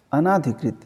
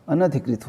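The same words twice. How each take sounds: First: अनाधिकृत with a long "naa", a-naa-dhi-krit; teacher sounds out अनाधिकृत as the mistaken form, long aa after n; wrong form shown. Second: अनधिकृत with a short "na" and aspirated "dhi", a-na-dhi-krit; teacher gives अनधिकृत as the right form, short na, breathy dh; correct form shown. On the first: Hindi teacher showing students the wrong word, long "naa" clearly sounded. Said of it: "अनाधिकृत नहीं होता". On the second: Hindi teacher giving students the correct word, short "na" and aspirated "dh". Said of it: "अनधिकृत होता है". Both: Shown as a demonstration.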